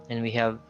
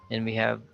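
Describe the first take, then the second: The two takes are said the same way.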